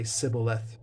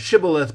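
First: The word begins with an s sound. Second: The word begins with an sh sound. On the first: "So they would say Sibboleth because of the dialectical difference" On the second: "they couldn't say the SH"

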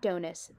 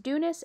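First: The first vowel sounds like 'oh'. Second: The first vowel sounds like 'oo'. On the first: The speaker calls it wrong. "and not Donus" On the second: The speaker calls it right. "it is Dunus"

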